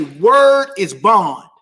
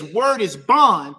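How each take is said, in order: First: Word is bond, each word slow and loud, WORD hit hardest; slow emphatic saying. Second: Said in the usual way. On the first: Shown as a demonstration. Pastor teaching the congregation a street saying, slow and weighty. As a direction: lay down "Word is bond" slowly, like a vow. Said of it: "We say it like this". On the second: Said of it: "When someone says".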